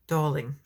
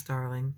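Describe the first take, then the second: First: "Darling" with a Brooklyn aw, no r; Brooklyn accent. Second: Said in the usual way. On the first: Retold or imitated. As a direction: imitate his Brooklyn "Darling", dropping the r. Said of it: "in his accent ... Brooklyn".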